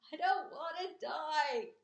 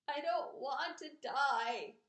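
First: Screaming. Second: Moaning. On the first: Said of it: "screamed Wilbur". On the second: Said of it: "he moaned". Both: A narrator's reading.

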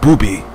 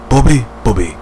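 First: Booby with a long oo vowel; Booby, said like boo-bee; mispronounced name. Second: Bobby with a short o, like bob; Bobby, said carefully the right way; correct name. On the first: Correcting himself on the wrestler's name, Booby said wrongly. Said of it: "And I have to call Bobby, not". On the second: Correcting himself on the wrestler's name, Bobby said right. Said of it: "And I have to call Bobby". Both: Shown as a demonstration.

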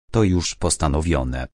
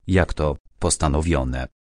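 First: Said in the usual way. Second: Mildly puzzled repeat of the word; surprised echo. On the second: Acted. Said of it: "Spojrzała ze zdziwieniem".

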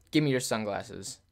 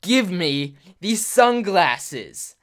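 First: Low-key retold intimidating demand; understated mock menace, level and controlled. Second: Very slow, loud, higher-pitched mock threat; real angry. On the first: Girl demands his sunglasses at the table, mildly intimidating. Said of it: "Like, real intimidating". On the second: Girl threatening him with a plastic knife, loud angry demand. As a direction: drag out each word as a forceful demand. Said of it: "like, real angry".

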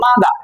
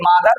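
First: "মাদা" ending on an open "daa", no R; British silent R. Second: Said in the usual way. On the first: Shown as a demonstration. Teacher showing students British mother, "মাদা" with no final R. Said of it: "তারা বলে". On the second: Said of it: "যেমন আমরা বলি".

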